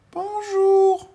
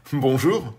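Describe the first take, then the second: First: Very high, loud little greeting; tiny little voice. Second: Louder, ordinary-pitched grown-up greeting; postman's voice. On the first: Tiny man calls up to the postman, very high voice. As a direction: pipe up from the ground. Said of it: "une petite voix". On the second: Postman answers the tiny man, louder grown-up voice. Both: Acted.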